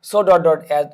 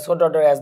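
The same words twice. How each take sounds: First: Slow, stretched so dot dot as, every word spaced out; slow and deliberate. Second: Said in the usual way. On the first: Shown as a demonstration. Teacher dictating the pattern slowly to students. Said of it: "teacher spells out the pattern". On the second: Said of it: "teacher repeats the pattern".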